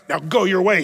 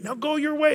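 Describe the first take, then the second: First: The words sound disgusted and contemptuous. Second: The words sound warm and compassionate. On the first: The woman is being scorned. The speaker calls it wrong. "with disgust" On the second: The woman is being freed and forgiven. The speaker calls it right. "it was with great compassion"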